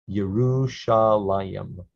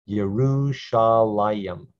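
No difference in how they are said.

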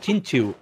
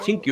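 First: The second syllable starts with a ch sound. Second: The second syllable starts with a k sound. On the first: The speaker calls it right. "es Chinchu" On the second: The speaker calls it wrong. "No es Chinkyu"

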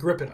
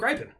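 First: The first syllable does not sound like 'gripe'. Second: The first syllable sounds like the word 'gripe'. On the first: The speaker calls it right. "I got to say it right" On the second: The speaker calls it wrong. "G-R-I-P-E is gripe. So put an N on the end"

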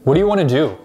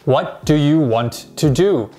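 First: The words are reduced and blended together. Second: Every word is said fully and separately. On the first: "native speakers say it like this" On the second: "Most English learners will read it like this"

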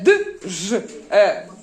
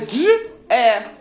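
First: The d and zh are said as separate sounds. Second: The d and zh merge into one sound. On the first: The speaker calls it wrong. "Ми не д, ж, е" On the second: The speaker calls it right. "Ми дж, е"

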